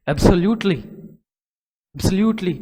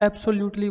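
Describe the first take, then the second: First: एब्सोल्यूटली said the British way, stressed and louder, falling at the end. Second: Indian local way. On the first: शिक्षक छात्रों को अंग्रेज़ों का उच्चारण दिखाते हुए, ज़ोर देकर एब्सोल्यूटली. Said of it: "अंग्रेज बोलेंगे स्ट्रेस दे के वर्ड्स पे". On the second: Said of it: "इधर लोकल एरिया में किस तरह ... बोल देंगे". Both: Shown as a demonstration.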